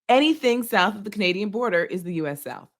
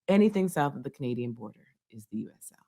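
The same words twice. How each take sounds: First: It is said louder, with a clearer voice. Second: It is said quietly, with a low voice.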